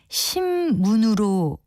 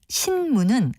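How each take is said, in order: First: The first syllable ends in an m sound. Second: The first syllable ends in an n sound. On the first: The speaker calls it wrong. "뒤에 자음 미음에 끌려서 신문으로 발음을 한다든지" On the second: The speaker calls it right. "글자 그대로 발음해야 하는데"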